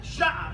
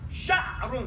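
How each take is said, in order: First: Sha'a with the ending dropped; short spoken sha'a. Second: Sha'run with the full ending; full form sha'run. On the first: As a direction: clip it to sha'a. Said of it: "it's gonna sound like sha'a". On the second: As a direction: give sha'run its whole ending. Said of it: "The actual word is sha'run". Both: Shown as a demonstration.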